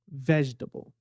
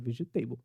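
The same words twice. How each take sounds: First: The stress falls on the first syllable. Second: The stress falls on a later syllable. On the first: The speaker calls it right. "A tônica dela tá no começo" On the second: The speaker calls it wrong. "se isso aqui fosse uma palavra em português, a gente falaria como?"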